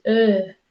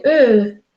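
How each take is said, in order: First: "eh" con la vocal correcta, dicho suave, como modelo; la E bien pronunciada, de profesora; correct vowel. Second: "eh" de la alumna, dicho más fuerte y con la vocal equivocada; la E mal pronunciada, como la dijo Paula; wrong vowel. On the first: (la E correcta, de modelo) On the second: (la E equivocada de la alumna) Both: Shown as a demonstration. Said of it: "No, Paula, es, eh".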